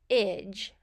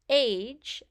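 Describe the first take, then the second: First: The vowel is a short I, like ridge. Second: The vowel is a long A, like page. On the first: The speaker calls it right. "Instead, we say age" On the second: The speaker calls it wrong. "we don't say age as we would um, for a V C E syllable"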